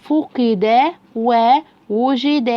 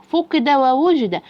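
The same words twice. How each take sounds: First: Very slow, every syllable held; slow sounding-out. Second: Syllables run together into whole words; faster blended reading. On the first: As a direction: read it piece by piece like a beginner. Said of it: "أسرع يا بطل". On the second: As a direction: join both words in one brisk go. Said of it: "أسرع". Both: Shown as a demonstration.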